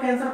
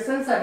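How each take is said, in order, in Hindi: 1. यह शब्द कठोर K ध्वनि से शुरू होता है। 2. यह शब्द कोमल S ध्वनि से शुरू होता है। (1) "सी का मतलब कैंसर पढ़ लेंगे, लेकिन नहीं" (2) "ये सेंसर है"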